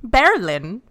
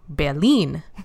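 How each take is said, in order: First: Berlin is pronounced with an English accent. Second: Berlin is pronounced with a German accent. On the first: The speaker calls it wrong. "not saying Berlin in a Germany way" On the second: The speaker calls it right. "You're supposed to say it like Berlin"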